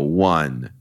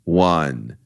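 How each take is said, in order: No difference in how they are said.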